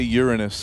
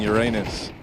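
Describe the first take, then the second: First: The name does not sound like 'your anus'. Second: The name sounds like the phrase 'your anus'. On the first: It avoids sounding like a rude phrase. "My teachers always used to say Uranus to avoid that" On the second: It sounds like a rude phrase. "saying Uranus"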